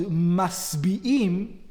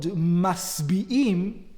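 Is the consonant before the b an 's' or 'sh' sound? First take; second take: s; s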